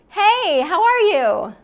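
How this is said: The voice is high and resonates in the head. "One's the head voice"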